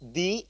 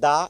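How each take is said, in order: First: The vowel of 'the' is a long 'ee'. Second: The vowel of 'the' is a short 'uh'. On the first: "এজন্য এখানে দি হয়েছে।" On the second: "তখন সেখানে দা ব্যবহার করতে হবে"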